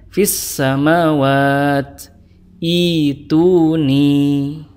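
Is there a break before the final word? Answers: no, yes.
yes. It stops, then restarts on the last word. "kalau diwaqaf dibacanya"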